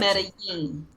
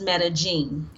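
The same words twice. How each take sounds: First: The double L sounds like an English Y. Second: The double L sounds like an English J.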